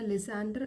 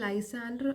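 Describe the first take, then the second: First: The first vowel sounds like 'ih'. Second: The first vowel sounds like 'eye'. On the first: "ലിസാൻഡർ എന്നും pronounce ചെയ്യാം" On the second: "നമുക്ക് ലൈസാൻഡർ അതുപോലെ തന്നെ ലിസാൻഡർ എന്നും pronounce ചെയ്യാം"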